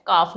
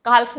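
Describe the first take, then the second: First: काफ with silent l; correct pronunciation. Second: काल्फ with the l sounded; wrong pronunciation. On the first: Teacher models the right word, काफ without l. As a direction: say काफ, no l sound. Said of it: "काफ, not काल्फ". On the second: Teacher imitates students saying काल्फ with l. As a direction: say काल्फ with a clear l. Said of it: "काल्फ नहीं होता". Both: Shown as a demonstration.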